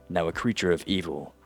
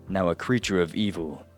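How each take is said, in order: Both takes have the same delivery.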